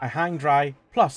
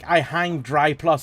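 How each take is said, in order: First: There is a pause between dry and plus. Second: Dry plus runs together with no pause. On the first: Plus adds another point to the sentence. The speaker calls it right. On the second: Dry plus is the name of a product. The speaker calls it wrong.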